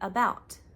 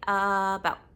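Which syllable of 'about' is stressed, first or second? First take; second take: second; first. First: The stress is on the second syllable. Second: The stress is on the first syllable. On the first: The speaker calls it right. "You say about" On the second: The speaker calls it wrong. "You wouldn't say about"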